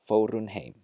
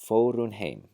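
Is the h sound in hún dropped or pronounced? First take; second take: dropped; dropped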